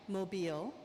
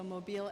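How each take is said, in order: First: Mobile said carefully as moh-BEEL, stress on the second syllable; careful pronunciation. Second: Mobile said moh-BEEL, rhymed with automobile. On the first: Speaker to the audience, trying to say Mobile right, careful. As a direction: Mobile with a long ee, rising. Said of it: "let me get this pronunciation right". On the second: Speaker checking Mobile against automobile, rhyming pronunciation. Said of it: "I think automobile". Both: Shown as a demonstration.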